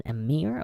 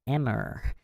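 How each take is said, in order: First: Emir said "uh-MEER"; second-syllable stress. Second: Emir said "EM-er"; first-syllable stress. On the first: Reader weighing up how to say it, emir as "uh-MEER". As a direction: stress the end of emir, long ee. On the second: Reader trying the other pronunciation, emir as "EM-er". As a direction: stress the start of emir, short e. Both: Shown as a demonstration. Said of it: "Is it emir or emir?".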